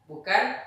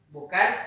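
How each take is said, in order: The two takes are said the same way.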